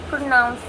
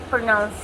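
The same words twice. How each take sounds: Both takes have the same delivery.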